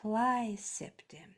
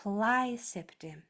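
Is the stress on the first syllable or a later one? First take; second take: first; first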